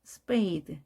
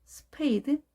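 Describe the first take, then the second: First: 스페이드 with an unpuffed p, close to ㅃ; smooth English "spade" for 스페이드; softened P. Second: 스페이드 with a puffed Korean ㅍ, pitched higher; hard aspirated P. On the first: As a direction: model the smoother way. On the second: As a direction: stiff Korean-style 스페이드. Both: Shown as a demonstration. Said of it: "이렇게 하면 훨씬 부드럽게".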